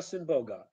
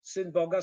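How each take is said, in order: First: "Syn Boga" said as "sym Boga"; "Syn Boga" run together, lower, m for n; assimilated n. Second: Said in the usual way. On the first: Shown as a demonstration. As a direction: end "Syn" on m. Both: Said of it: "assimilation is there".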